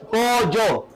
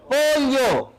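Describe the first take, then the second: First: "pollo" said "po-yo", as yeísmo speakers do. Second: "pollo" with a palatal l, "po-lyo", higher; pollo with elle. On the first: Teacher quoting riverside speakers, "pollo" as "po-yo". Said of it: "Ellos dicen". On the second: Teacher giving the distinguished sound, "pollo" as "po-lyo". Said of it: "Pero en sí debería ser". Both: Shown as a demonstration.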